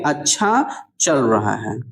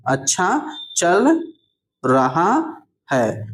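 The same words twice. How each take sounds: First: Said in the usual way. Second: अच्छा चल, long pause, then रहा है; अच्छा चल रहा है stretched out with gaps; slow dictation. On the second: Shown as a demonstration. Repeats word by word for learners.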